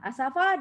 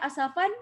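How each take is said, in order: First: It ends on a long vowel held two counts. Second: It ends on a short vowel followed by n. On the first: The reader stops on this word. "asafa dia jadi dua rakaat" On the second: The reader continues without stopping. "kalau kita baca asafan, dia pendek"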